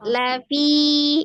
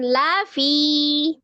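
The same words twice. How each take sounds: First: The pitch stays level across both syllables. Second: The pitch jumps up on the syllable 'la'. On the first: The speaker calls it right. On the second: The speaker calls it wrong. "masih ada yang naik lanya, jangan ya, jangan lafi"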